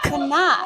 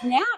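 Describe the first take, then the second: First: The name is said as two full syllables. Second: The name is said as one short syllable. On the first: The speaker calls it right. "It's Canuck" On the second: The speaker calls it wrong. "Sorry, I'm saying that wrong"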